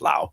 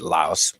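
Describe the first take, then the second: First: The word ends without an s sound. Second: The word ends with an s sound. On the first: The speaker calls it right. "it is pronounced Lao over there anyway" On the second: The speaker calls it wrong. "a lot of people pronounce it Laos"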